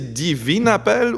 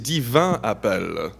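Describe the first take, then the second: First: The first word is said as feminine 'divine'. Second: The first word is said as masculine 'divin'. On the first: The speaker calls it wrong. "j'ai toujours l'impression de vouloir dire Divine Appel" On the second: The speaker calls it right. "Divin. Donc, Divin Appel"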